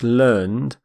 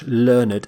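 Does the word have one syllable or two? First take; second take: one; two. First: The ending is not a separate syllable. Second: The ending is said as a separate syllable. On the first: It is the verb. "that's how we pronounce the verb" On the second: It is the adjective meaning very educated. "We actually pronounce the E D ending completely"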